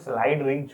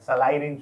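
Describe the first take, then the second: First: The first word is one syllable, 'slide'. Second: The first word is split into two syllables. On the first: This is the actual proper name. The speaker calls it right. "Actual में स्लाइड range होगा" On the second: This is the everyday colloquial form. The speaker calls it wrong. "आम बोलचाल में ... सलाई range बोलते हैं"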